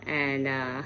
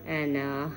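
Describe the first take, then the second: No difference in how they are said.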